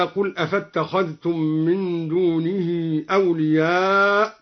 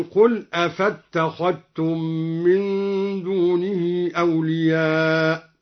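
First: Said in the usual way. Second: "أفاتخذتم" with no dh, a doubled t instead; dhal merged into taa. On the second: Shown as a demonstration. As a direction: recite slowly, merging the dh of "أفاتخذتم" into the t. (إدغام ذال "أفاتخذتم" في التاء) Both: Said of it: "أدغم الذال في التاء".

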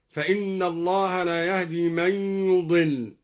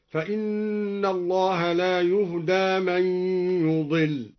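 First: Said in the usual way. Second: "يهدى" as yuhdaa, u then long a; slow recitation with "يهدى" said yuh-daa; passive-verb reading. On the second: Shown as a demonstration. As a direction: chant slowly, "يهدى" ending in long aa. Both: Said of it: "قرأ الدوري بضم الياء وفتح الدال".

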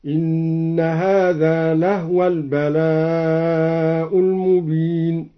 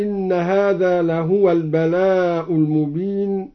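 First: "لهو" said as lahwa, no vowel on the ha; slow chant with "لهو" closed to "lah-wa"; vowelless ha. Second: Said in the usual way. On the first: Shown as a demonstration. Reciter showing Al-Duri's reading, "لهو" as lahwa. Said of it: "أسكن الهاء".

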